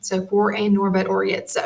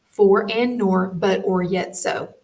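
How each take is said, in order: First: Said in the usual way. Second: Said more slowly, word by word; slow down and space each word; slower. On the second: Shown as a demonstration. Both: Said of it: "I'm gonna say that slower".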